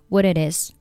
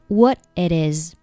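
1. 三个词连成一个连读串。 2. what末尾的t不发音；只有it和is连读。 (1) "你也可以选择把这三个单词都连读起来" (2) "它是选择了what 末尾不发音，然后是it 和is 进行一个连读"

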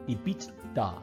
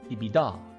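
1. 第四个字母T明确发音。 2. 第四个字母T不发音。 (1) "第四个字母T 是不发音的，所以说不是发成EBITDA" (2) "而是EBITDA EBITDA EBITDA"

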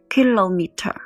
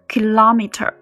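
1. 这个单词是英式发音。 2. 这个单词是美式发音。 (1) "在英式发音里呢是kilometer" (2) "这里kilometer 是美式发音"

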